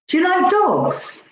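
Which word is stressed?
dogs. The stress falls on the word dogs. The question is about dogs rather than cats. "Rather than cats"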